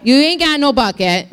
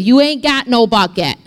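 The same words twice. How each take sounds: First: Leaning into it, relishing every word; relished sassy retort at the well; savoring the sass. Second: A touch of sass, casual; lightly sassy woman at the well; sassy retort. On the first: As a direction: say it like it feels good. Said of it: "Say that. That feels good". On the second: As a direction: toss it off with mild attitude. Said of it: "The woman said to him". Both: Retold or imitated.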